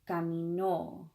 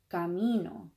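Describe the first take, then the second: First: The stress falls on the final syllable. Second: The stress falls before the final syllable. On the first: She walked. "we have to punch that O on the end" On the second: I walk. "I walk"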